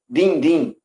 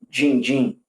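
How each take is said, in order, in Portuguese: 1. É falado do jeito que outros falantes do Ceará falam. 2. É falado do jeito que os falantes de Fortaleza falam. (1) "eles falam din-din" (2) "tem pessoas dentro do estado do Ceará que não falam din-din"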